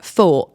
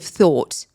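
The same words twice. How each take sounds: First: It is said in a Cockney accent. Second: It is said in a standard accent.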